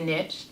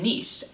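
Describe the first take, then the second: First: It is said the American way. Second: It is said the non-American way. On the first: "We Americans say niche" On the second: "non-Americans say niche"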